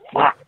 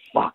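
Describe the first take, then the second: First: It is said loudly. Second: It is said at normal, quiet volume.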